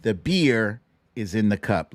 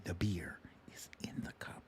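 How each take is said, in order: First: Said in the usual way. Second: Hushed secret whisper, nearly silent. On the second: Acted. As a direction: let them in on the secret in a whisper. Repeats the line as a secret.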